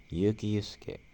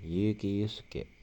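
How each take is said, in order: First: Said in the usual way. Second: Yuki Yusuke said slowly, the voice rising at the start of Yuki; slow careful read, lifting the start of Yuki Yusuke; slow demo of Japanese pitch accent, Yuki Yusuke rising at first. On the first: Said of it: "Kalau disambung ya". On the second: Shown as a demonstration. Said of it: "Dia awalnya naik".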